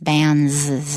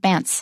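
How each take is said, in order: First: The word ends with a z sound. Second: The word ends with a ts sound. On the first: The speaker calls it right. "The S is a Z sound" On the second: The speaker calls it wrong. "It's not bants"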